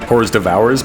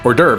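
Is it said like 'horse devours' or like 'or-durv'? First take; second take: horse devours; or-durv. First: It is said like 'horse devours', letter by letter. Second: It is said the French way, like 'or-durv'. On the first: This is how it looked when read in a book. "I would pronounce it in my head as as hors devours" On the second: This is how people said it out loud. "and then I would hear like hors d'oeuvre"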